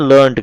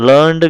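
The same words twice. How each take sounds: First: "లెర్న్డ్" ending in an unvoiced T. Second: First "లెర్న్డ్" ending in a voiced D. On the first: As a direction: say "లెర్న్డ్" as lurnt. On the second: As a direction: say "లెర్న్డ్" as lurnd. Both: Shown as a demonstration. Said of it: "లెర్న్డ్ కానీ లెర్న్డ్ కానీ ఈ రెండును".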